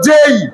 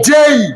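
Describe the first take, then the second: Both takes have the same delivery.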